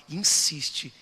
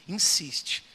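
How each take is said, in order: No difference in how they are said.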